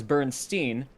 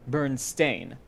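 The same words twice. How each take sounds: First: "Bernstein" ending like "steen"; common pronunciation. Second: "Bernstein" ending like "stain"; spelled pronunciation. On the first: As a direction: say "Bernstein" with a long E, BURN-steen. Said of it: "it was pronounced as". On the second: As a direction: say "Bernstein" with a long A, BURN-stain. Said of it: "the correct spelling is B E R". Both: Shown as a demonstration.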